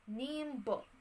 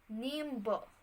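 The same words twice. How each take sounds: Both takes have the same delivery.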